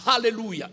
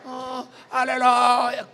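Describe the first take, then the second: First: Said in the usual way. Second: "Alléluia" drawn out slowly and loud; mock pious "Alléluia", long and loud; spiritual alleluia. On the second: Shown as a demonstration. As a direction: stretch "Alléluia" into a fervent cry. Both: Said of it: "Alléluia devient Alléluia".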